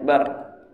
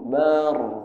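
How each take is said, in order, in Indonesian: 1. Vokal pada suku kata itu dibaca pendek. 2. Vokal pada suku kata itu dibaca panjang. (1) "Barnya itu pendek" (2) "Enggak benar itu"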